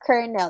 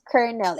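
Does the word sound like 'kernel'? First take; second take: yes; yes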